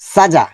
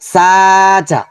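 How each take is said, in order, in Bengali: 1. স্বরধ্বনিগুলো ছোট আর দ্রুত বলা হয়। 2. স্বরধ্বনিগুলো ধীরে ধীরে টেনে বলা হয়। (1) "হরকতের উচ্চারণ দ্রুত" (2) "যদি বলি সাজা, তাহলে সেটা কিন্তু রং হয়ে যাবে"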